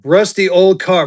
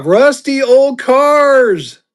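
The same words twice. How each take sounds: First: Said in the usual way. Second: Much higher, louder, very slow; goofy stretched-out voice. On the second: Pretend. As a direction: drag it out in a silly high voice. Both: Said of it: "repeated drawn out".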